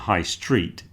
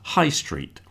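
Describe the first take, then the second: First: The stress falls on the word street. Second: The stress falls on the word high. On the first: A street that is high. The speaker calls it wrong. "So it's not a high street" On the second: The main shopping street of a town. The speaker calls it right. "we put the stress on the high"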